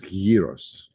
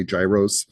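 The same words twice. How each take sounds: First: "gyros" slowly as Greek "YEE-ros"; correct Greek pronunciation. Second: "gyros" said as American "JAI-rohs"; common mispronunciation. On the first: Teacher correcting what people say, "gyros" as "YEE-ros". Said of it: "It's gyros". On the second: Teacher quoting how people say it, "gyros" as "JAI-rohs". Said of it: "people say gyros". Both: Shown as a demonstration.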